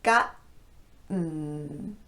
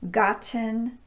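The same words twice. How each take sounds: First: The T is a glottal stop. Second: The T is a clear T. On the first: "So it looks like this" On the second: "a normal T sound in place of the glottal stop"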